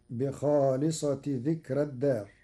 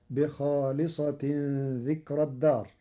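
First: بخالصة said as bi-khāliṣati with no nun, joined to ذكر; Warsh reading without tanwin. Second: Said in the usual way. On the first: Shown as a demonstration. Teacher reading بخالصة ذكر الدار with no tanwin. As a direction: recite بخالصة without tanwin, as a possessive construction. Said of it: "فتصير". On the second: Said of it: "قرأ ورش كلمة بخالصة".

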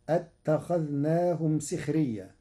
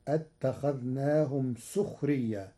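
First: Said in the usual way. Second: سخريا said as sukhriyyā with a rounded u on the sin; Warsh damma on sin. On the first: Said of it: "بضم السين". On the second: Shown as a demonstration. Teacher giving Warsh's سخريا with a damma on the sin. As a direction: recite سخريا with damma, not kasra. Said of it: "فتصير".

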